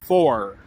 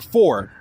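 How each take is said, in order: First: It is said in a Southern US accent. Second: It is said in a New York accent. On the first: "in the South they'll say" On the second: "In New York they'll say"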